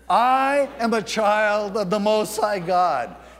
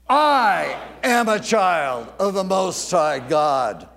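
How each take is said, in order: First: The word I gets no special emphasis. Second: The word I is strongly emphasized.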